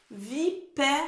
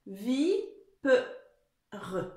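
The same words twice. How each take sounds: First: "Vipère" spaced out with an open è in PÈ; son è rétabli. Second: "vi, pe, re" in separate syllables, schwa replacing è; son è manquant. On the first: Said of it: "il manque le son est". (« Vipère » bien articulé avec un è ouvert) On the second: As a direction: break it up as vi... pe... re. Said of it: "il manque quoi comme son". (« vi, pe, re » découpé, sans le son è) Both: Shown as a demonstration.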